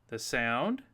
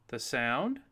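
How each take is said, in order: No difference in how they are said.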